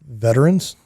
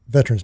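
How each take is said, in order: First: All three syllables are fully pronounced. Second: The middle vowel is dropped, leaving two syllables. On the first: "I like to pronounce it that way because that's the way it's spelled" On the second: "if I'm in a hurry... it rolls off the tongue a little better"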